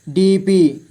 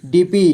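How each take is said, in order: First: DP split into डी, पी; syllable by syllable. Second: Said in the usual way. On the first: Shown as a demonstration. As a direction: separate डी and पी in DP. (DP को तोड़कर: डी, पी) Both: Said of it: "थोड़ा fast पढ़ेंगे".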